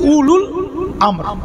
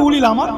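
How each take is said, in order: First: The first word has a u vowel: ulul. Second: The first word has an i vowel: ulil. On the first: The speaker calls it right. "Actually উলুল আমর" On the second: The speaker calls it wrong. "আমরা বলি উলিল আমার"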